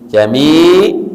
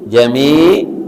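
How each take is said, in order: First: The word ends abruptly on a consonant. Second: The word ends abruptly on a consonant.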